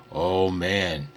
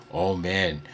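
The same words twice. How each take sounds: The two takes are said the same way.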